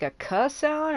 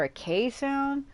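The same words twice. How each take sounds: First: "K" said as a short kuh; "K" with the vowel of cup; kuh sound. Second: "K" said as kay; "K" with a long ay vowel; kay sound. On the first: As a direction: say "K" as the sound kuh, not the letter name. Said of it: "don't know if that would make". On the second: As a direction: say "K" like the letter name. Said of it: "a K sound or a K sound". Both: Shown as a demonstration.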